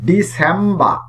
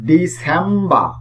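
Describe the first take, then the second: Both takes have the same delivery.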